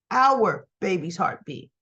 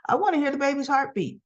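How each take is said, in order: First: "our" drawn out and set apart, lower and slower; slow, pointed "our"; stress on OUR. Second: Said in the usual way. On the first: Retold or imitated. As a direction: lean slowly on "our" to claim a share. Rewords retold line, stressing shared parenthood.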